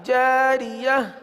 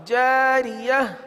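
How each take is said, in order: Both takes have the same delivery.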